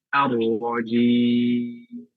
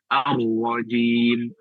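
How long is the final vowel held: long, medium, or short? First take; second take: medium; short. First: The final vowel is held moderately long. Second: The final vowel is held briefly. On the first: "bisa empat harokat" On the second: "bisa dua harokat"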